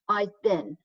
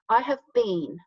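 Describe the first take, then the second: First: The word been is short and reduced. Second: The word been is said fully and carefully. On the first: This is the informal spoken form. "the contraction, it becomes more like a been" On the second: This is the full, more careful form. "when I'm saying the full form, I say been more carefully"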